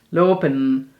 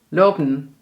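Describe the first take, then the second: Both takes have the same delivery.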